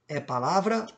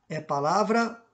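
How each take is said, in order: The two takes are said the same way.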